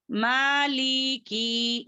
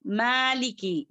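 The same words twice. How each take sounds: First: मालिकी slow, every vowel stretched out; wrongly dragged vowels. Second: मालिकी with long first vowel, short li and ki; correct short endings. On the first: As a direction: drag the li and ki of मालिकी as a mistake. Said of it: "इस तरीके से नहीं करेंगे". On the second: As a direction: stretch only the maa in मालिकी. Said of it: "इस तरीके से करेंगे". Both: Shown as a demonstration.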